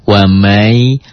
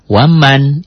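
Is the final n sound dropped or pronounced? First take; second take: dropped; pronounced. First: The final n sound is dropped and merged. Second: The final n sound is clearly pronounced. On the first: "N-nya hilang dalam bunyi, jadi double Y, jadi wamai" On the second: "Tulisan tetap waman"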